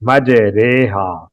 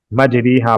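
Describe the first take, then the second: First: "مجریحا" slowly as maj-RAY-haa; correct majhool reading. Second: "مجریحا" as maj-REE-haa; wrong "ri" reading. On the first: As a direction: stretch the ay after the r in "مجریحا". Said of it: "اس کی را کو پڑھیں گے". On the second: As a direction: ee vowel after the r in "مجریحا". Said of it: "غلط ہے". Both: Shown as a demonstration.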